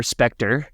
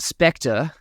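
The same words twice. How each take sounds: First: Spectre in a drawled Southern accent, r sounded at the end. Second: Said in the usual way. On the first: Shown as a demonstration. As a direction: say Spectre like a Southerner, spek-ter. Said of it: "my southern accent in there once". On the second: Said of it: "get my southern accent in there".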